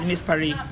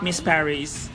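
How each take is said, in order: First: Paris is pronounced the French way. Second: Paris is pronounced the English way. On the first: "they pronounce it in a French way" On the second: "foreigners would read it"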